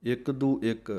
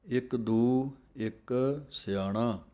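First: ਇੱਕ ਦੂ ਇੱਕ run together as one phrase; ਇੱਕ ਦੂ ਇੱਕ slurred into a single unit; wrong way, all joined. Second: ਇੱਕ ਦੂ joined, then ਇੱਕ ਸਿਆਣਾ as a separate phrase; measured ਇੱਕ ਦੂ ਇੱਕ ਸਿਆਣਾ with the stress on ਦੂ; correct phrasing. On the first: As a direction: imitate the mistaken reading that joins all three words ਇੱਕ ਦੂ ਇੱਕ. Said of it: "ਕਈ ਸਿੰਘ ... ਇਹ ਤਿੰਨੇ ਪਾਠ ਸੰਬੰਧਕ ਕਰਵਾ ਦਿੰਦੇ ਹਨ". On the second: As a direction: slowly recite ਇੱਕ ਦੂ as one unit, break, then ਇੱਕ ਸਿਆਣਾ. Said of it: "ਇਸ ਪਾਠ ਨੂੰ ਅਲੱਗ-ਅਲੱਗ ਨਹੀਂ ਬੋਲਣਾ". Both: Shown as a demonstration.

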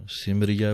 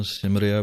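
First: ਸਿਮਰੀਐ said simriai, ending on ai; correct pronunciation. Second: ਸਿਮਰਿਆ said simria, ending on a; common wrong pronunciation. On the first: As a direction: end ਸਿਮਰੀਐ on ai. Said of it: "ਸਿਮਰੀਐ ਬੋਲਣਾ ਹੈ". (ਸਹੀ ਉਚਾਰਨ ਸਿਮਰੀਐ) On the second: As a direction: demo the usual simria. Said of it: "ਹੁਣ ਵਾਲਾ ਜੋ ਬੋਲਦੇ ਹਨ". (ਪ੍ਰਚਲਿਤ ਗਲਤ ਉਚਾਰਨ ਸਿਮਰਿਆ) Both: Shown as a demonstration.

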